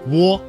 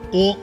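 First: A w sound comes before the o. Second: A single steady vowel o with no glide. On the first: The speaker calls it wrong. "窝在哦这个单元音前面加了一个声母呜" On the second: The speaker calls it right. "哦是单元音韵母，发音的时候舌头的位置和嘴唇的形状是不能发生变化的"

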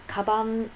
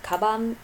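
The two takes are said the same way.

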